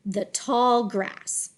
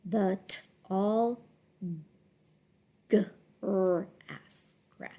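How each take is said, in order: First: Slow, connected "the tall grass"; deliberate, flowing "the tall grass"; smooth phrase reading. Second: Soft, low, halting "the tall grass"; quiet, careful chunks of "the tall grass"; sounded out. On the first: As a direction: glide through "the tall grass" as one phrase. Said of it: "read smoothly in phrases". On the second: Teacher decodes phrase in chunks. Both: Shown as a demonstration.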